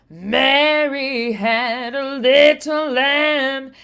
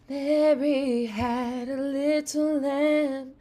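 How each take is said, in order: First: The voice has a rough growl. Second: The voice is raspy and airy. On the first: "adding a little growly" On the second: "I try a little raspy"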